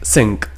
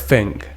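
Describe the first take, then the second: First: The first sound is an S sound. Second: The first sound is an F sound. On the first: "you might be pronouncing it S" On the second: "or F"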